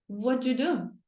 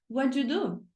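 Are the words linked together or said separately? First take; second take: linked; linked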